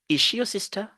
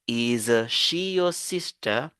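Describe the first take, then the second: First: The consonants are linked into one prolonged sound. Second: The two words are said with separate consonants. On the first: The speaker calls it right. "On va dire ... On va un peu prolonger la consonne" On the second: The speaker calls it wrong. "Au lieu de dire"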